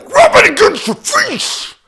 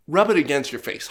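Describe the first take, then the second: First: High, loud yell, far above usual voice; exasperated yell. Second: Said in the usual way. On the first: Retold or imitated. Customer orders employee to test cardboard on his face, exasperated yell. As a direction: shout it as a forceful demand. Exasperated repeat of retold demand.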